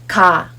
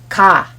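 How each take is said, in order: No difference in how they are said.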